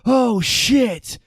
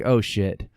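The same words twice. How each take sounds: First: It is said slowly and drawn out. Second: It is said quickly.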